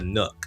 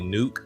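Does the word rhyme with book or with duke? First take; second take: book; duke. First: The vowel is short, rhyming with book. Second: The vowel is long, rhyming with duke. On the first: The speaker calls it right. "but it's the Nook" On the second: The speaker calls it wrong. "I call it like the R O G Nuke"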